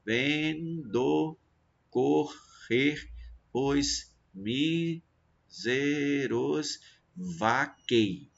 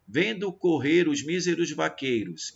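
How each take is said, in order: First: "Vendo correr os míseros vaquei" split into slow, separate syllables; ven, do, cor, rer: pause after each syllable, stopping on "vaquei". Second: Said in the usual way. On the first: Shown as a demonstration. Teacher scanning a verse for students, syllable by syllable. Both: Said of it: "cada sílaba vai ser um verso poético".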